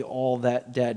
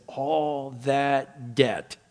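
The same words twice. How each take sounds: First: Said in the usual way. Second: "All that debt" drawn out very slowly, each word weighed; slow, separated stress on each word of "All that debt"; emphasis on "All that debt". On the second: Shown as a demonstration. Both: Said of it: "he puts the emphasis on the".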